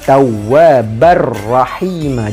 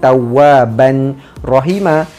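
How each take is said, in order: First: The n sound merges fully into the r. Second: The n sound is pronounced before the r. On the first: The speaker calls it right. "tapi Tawwabar Rahima. Jadikan ba satu baris dan terus masuk pada huruf ra" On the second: The speaker calls it wrong.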